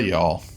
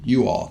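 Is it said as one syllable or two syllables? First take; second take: one syllable; two syllables. First: The words blend into one reduced syllable. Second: The words are said as two full syllables. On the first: The speaker calls it wrong. "not y'all" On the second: The speaker calls it right. "You all, not y'all, you all"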